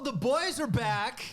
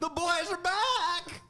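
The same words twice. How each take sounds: First: The line sounds relaxed and natural. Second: The line sounds stiff and forced. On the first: The speaker calls it right. "that felt better" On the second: The speaker calls it wrong. "It felt a little forced"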